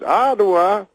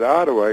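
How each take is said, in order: First: High, rising echo of the word; Bill Cosby impression. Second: Said in the usual way. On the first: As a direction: repeat it high as a comic question. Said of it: "He goes". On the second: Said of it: "And I said".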